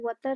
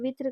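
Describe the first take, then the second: First: The first vowel sounds like 'a'. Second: The first vowel sounds like 'i'. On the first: The speaker calls it right. "उसका सही तलफ़ुज़ वतर है" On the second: The speaker calls it wrong. "ज्यादातर असातिज़ा और बच्चे वित्र कहते हैं"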